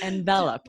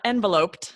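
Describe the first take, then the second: First: The stress falls differently from the noun envelope. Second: The stress falls as in the noun envelope. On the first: The speaker calls it right. "It's enveloped" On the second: The speaker calls it wrong. "tempted to read it as enveloped. Don't do that"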